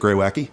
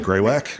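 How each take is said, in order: First: The word has its formal, textbook pronunciation. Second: The word has a casual, alternate pronunciation. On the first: This is the scientifically correct way to say it. "if you were pronouncing it correctly" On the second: This is an everyday way that is easier to say seriously. "an alternate pronunciation"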